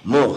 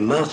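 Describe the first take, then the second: First: The word is said with an 'oh' vowel. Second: The word is said with an 'ah' vowel. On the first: "c'est en prononciation sfarad"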